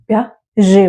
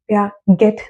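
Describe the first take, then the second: First: The name ends without any t sound. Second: The name ends with a pronounced t sound. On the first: The speaker calls it right. "प्याजे बोलेंगे" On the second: The speaker calls it wrong. "Last का ये टी है that is silent ... नहीं"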